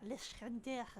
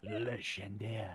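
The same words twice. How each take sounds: First: Attempted French accent, barely done; failed French accent. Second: Put-on French accent. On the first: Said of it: "I cannot do a French accent, even if I fucking tried". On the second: Repeats name French style.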